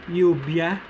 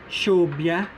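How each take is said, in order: First: The consonant sounds like English y. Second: The consonant sounds like English sh. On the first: "The Y-like or the letter I-like sound" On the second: "The S H-like sound"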